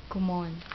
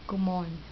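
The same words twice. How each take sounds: The two takes are said the same way.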